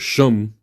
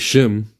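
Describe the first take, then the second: First: The vowel sounds like the one in 'hum'. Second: The vowel sounds like the one in 'hem'. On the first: The speaker calls it right. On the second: The speaker calls it wrong.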